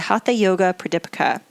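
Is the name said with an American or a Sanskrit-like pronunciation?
American. The name is said with an American pronunciation. The speaker calls it wrong. "That's the uh, Americanized version of my pronunciation of it"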